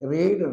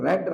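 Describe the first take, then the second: First: The vowel is a long 'ee' sound. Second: The vowel is a short 'e' sound. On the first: It is the present tense. "దీన్ని రీడ్ అనాలి" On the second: It is the past tense. "దీన్ని రెడ్ అని పలకాలి"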